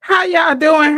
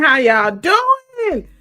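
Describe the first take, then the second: First: Big excited hello; loud greeting. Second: Drawn-out greeting. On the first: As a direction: call out the welcome. Loud live-stream greeting. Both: Real, not acted.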